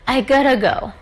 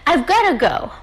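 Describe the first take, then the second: First: Have is dropped and got to blends together. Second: Have is contracted but got to stays separate. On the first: "we normally drop have and we say it in a kind of very um, e- easier" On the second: "You can say"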